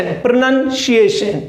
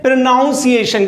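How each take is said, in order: First: "प्रोनंसिएशन" with NUN as second syllable; correct pronunciation. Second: "प्रोनाउंसिएशन" with NOUN as second syllable; mispronounced pronunciation. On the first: Teacher correcting learners, "प्रोनंसिएशन" said with a short NUN. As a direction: say "प्रोनंसिएशन" as pro-NUN-si-ay-shun, no "ow". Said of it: "not pronunciation". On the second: Teacher mimicking some people's error, "प्रोनाउंसिएशन" said with an "ow" sound. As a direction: say "प्रोनाउंसिएशन" as pro-NOUN-si-ay-shun. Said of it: "कुछ लोग इसको बोलते हैं". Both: Shown as a demonstration.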